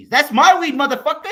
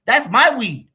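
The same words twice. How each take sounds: First: "That's my weed" yelled, "my" punched, higher; louder yell on "my" ending in a laugh; louder repeat. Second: "my" hit hard in "That's my weed"; loud, firm "That's my weed" with the weight on "my"; stress on my. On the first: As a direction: shout it back even louder, almost laughing. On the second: Possessive rant, first take. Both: Real, not acted.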